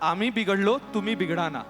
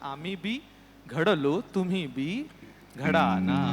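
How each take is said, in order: First: The syllables run together as one word. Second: 'बी' is set apart as a separate word. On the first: We got spoiled, so you get spoiled too. The speaker calls it wrong. "बिघडलो म्हणजे आम्ही बिघडलो असं नाही" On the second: We too were shaped well, so you be shaped too. The speaker calls it right. "आम्ही बी घडलो"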